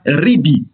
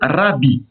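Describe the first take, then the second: First: The first vowel is an i sound. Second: The first vowel is an a sound. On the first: "Les textes séfarades anciens vocalisent ce mot par ribi" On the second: "les textes ashkénazes vocalisent ce mot rabbi"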